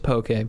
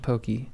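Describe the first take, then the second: First: The word ends with a 'kay' sound. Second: The word ends with a 'kee' sound. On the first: This is the standard name of the dish. "I know it's poke" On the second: This is a personal nickname for the dish. "but I like calling it pokey"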